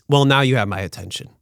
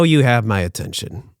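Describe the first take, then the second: First: Said in the usual way. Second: "you" hit hard, rest of "you have my attention" easy; correcting himself by punching "you"; stress on you. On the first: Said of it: "No, you have my attention". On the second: Shown as a demonstration. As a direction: lean on the word "you".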